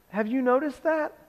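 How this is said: The voice sounds warm and loving. The listener is being gently corrected with care. The speaker calls it right. "it's with a loving voice"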